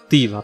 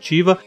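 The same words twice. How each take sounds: First: The name is said with non-Portuguese pronunciation. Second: The name is said with Portuguese pronunciation. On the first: "pela pronúncia que eu vi correta" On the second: "outros falam no português mesmo"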